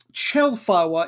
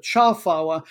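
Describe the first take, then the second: First: "Chelfawa" with an "eh" in the first syllable; "Chelfawa", first syllable sounding like "chel"; first vowel as "eh". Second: "Chalfawa" with an "ah" in the first syllable; "Chalfawa", first syllable sounding like "chal"; first vowel as "ah". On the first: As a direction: say "Chelfawa", opening on "chel" not "chal". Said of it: "when it's Romanized, it's". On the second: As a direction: say "Chalfawa", opening on "chal" not "chel". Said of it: "instead of". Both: Shown as a demonstration.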